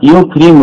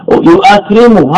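First: "يكرم" as yukrimu, hamza dropped; form in actual usage. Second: "يؤكرم" as yu'akrimu, with the hamza; form by analogy. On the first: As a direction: say "يكرم" as yu-kri-mu with no glottal stop. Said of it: "والاستعمال". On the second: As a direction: break "يؤكرم" with a glottal stop: yu-'a-krimu. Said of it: "هذا قياس". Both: Shown as a demonstration.

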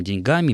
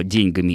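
First: "деньгами" stressed on the middle syllable га; shifted stress. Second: "деньгами" stressed on день; stress on the first syllable. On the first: Presenter cites the increasingly heard form, shifted stress in деньГАми. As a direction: say деньГАми, weight after день. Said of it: "в дальнейшем ударение будет смещаться". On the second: Presenter denies it is an error, first-syllable stress in ДЕНЬгами. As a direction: say ДЕНЬгами, weight at the start. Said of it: "утверждать, что". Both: Shown as a demonstration.

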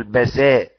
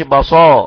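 First: بساء with a light, clear س; right بساء, thin س, not ص; correct pronunciation. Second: بصا with the س turned to a heavy ص; wrong بصا, emphatic ص in place of س; wrong pronunciation. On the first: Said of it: "قول بساء". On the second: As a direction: demo of the mistaken بصا, loud. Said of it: "وما تقولش بصا". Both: Shown as a demonstration.

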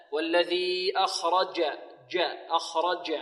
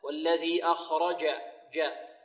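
First: "أخرج" with a d-tinged j from the tongue tip; slow demo of the mistake, "dj" in "أخرج"; faulty jim tinged with dal. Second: "أخرج" with pure jim from mid-tongue; correct jim. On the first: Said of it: "أو يشمها شيء من الدال". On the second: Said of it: "خطأ، لا". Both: Shown as a demonstration.

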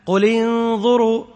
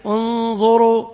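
First: "قل انظروا" read straight through, no stop before انظروا; linked reading. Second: "انظروا" started fresh with a hamza on damma, unzhuru, slowly; starting with damma. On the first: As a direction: join قل to انظروا with no pause. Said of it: "مثال ذلك". (وصل "قل انظروا" دون وقف) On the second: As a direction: begin انظروا with a clear u. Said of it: "وقفت، بعدين". (ابتداء "انظروا" بهمزة مضمومة: أُنظروا) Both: Shown as a demonstration.

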